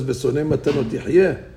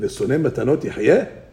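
First: It is said as a plain statement. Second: It is said as a question.

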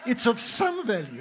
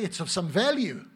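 First: The stress falls on the word some. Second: The stress falls on the word value. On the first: Exercise is only somewhat worthwhile. The speaker calls it right. "It's not of great value" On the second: Exercise is highly worthwhile. The speaker calls it wrong. "they put the emphasis on the wrong syllable"

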